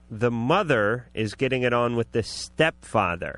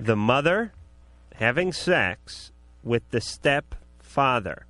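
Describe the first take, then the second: First: It is said at normal speed. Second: It is said slowly.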